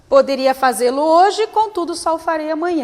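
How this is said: There is a short pause before contudo.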